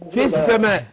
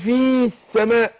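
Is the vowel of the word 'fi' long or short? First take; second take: short; long. First: The vowel of 'fi' is short and dropped. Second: The vowel of 'fi' is held long. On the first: The speaker calls it right. "لا في السماء" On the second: The speaker calls it wrong. "مش هقول في السماء"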